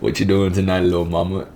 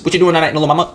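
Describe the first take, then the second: First: It is said slowly and smoothly. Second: It is said fast and rushed.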